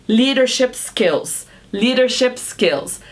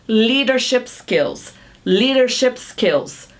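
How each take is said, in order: No difference in how they are said.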